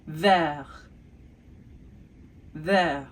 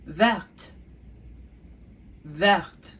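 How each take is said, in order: First: Vert said with silent T, ending open on the vowel; French vert. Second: Verte with the final T clearly sounded; French verte. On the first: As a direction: say vert without the final T sound. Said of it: "what the color green is in French". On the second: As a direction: pronounce the T at the end of verte. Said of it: "we have vert to verte". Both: Shown as a demonstration.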